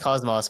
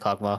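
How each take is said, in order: First: The name is pronounced as Cosmos. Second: The name is pronounced as Cockmark. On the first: This is the standard way to say the name. "it's pronounced Cosmos" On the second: The name is said this way as a joke. "I like to pronounce it Cockmark because it's funny"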